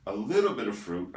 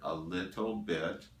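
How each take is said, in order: First: Said in the usual way. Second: "a little bit" spaced out deliberately; stress on a little bit. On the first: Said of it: "let me emphasize the word a little bit". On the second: Shown as a demonstration. Lecturer cautioning viewers about fruit, emphasis on "a little bit". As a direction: draw out each word of "a little bit". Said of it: "let me emphasize the word".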